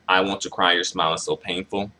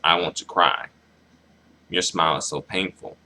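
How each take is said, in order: First: The two lines run together without a pause. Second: There is a pause between the two lines. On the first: The speaker calls it wrong. "They didn't separate the lines, so it comes off as like" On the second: The speaker calls it right. "that kind of like that pause there"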